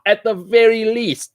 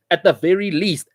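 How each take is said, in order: First: "very" hit high and slowed; stress on very. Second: Said in the usual way. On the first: Real, not acted. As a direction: lean hard on "very" in "At the very least".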